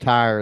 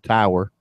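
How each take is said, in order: First: Tower is said as one syllable, like tire. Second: Tower is said as two syllables, tow-er. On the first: "I pronounce tower like tire" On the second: "They're like that's a tower"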